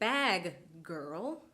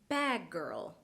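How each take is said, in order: First: The g sound is released twice. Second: A single g is held longer, then released. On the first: The speaker calls it wrong. "Notice I did not say bag girl" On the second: The speaker calls it right. "I held the stop part of the g sound for longer than usual"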